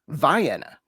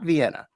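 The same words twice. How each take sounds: First: It uses the local American town pronunciation. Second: It uses the world city's usual pronunciation. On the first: It names the local town. "There's ... Vienna" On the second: It names the world city. "not Vienna"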